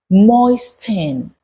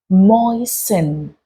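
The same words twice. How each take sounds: First: The T sound is clearly pronounced. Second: The T sound is left silent. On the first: The speaker calls it wrong. "You do not say moisten" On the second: The speaker calls it right. "you say moisten"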